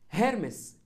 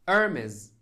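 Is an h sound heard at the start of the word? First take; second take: yes; no. First: The word begins with a clear h sound. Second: The word begins with a vowel, no h. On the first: "النطق العربي" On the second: "النطق الإنجليزي ... حرف الاتش صامت"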